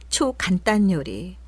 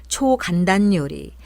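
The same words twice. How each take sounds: The two takes are said the same way.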